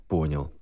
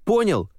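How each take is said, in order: First: Said in the usual way. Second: High, loud demanding question. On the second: Acted. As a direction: shout the question at him. Hero shakes amulet, demands.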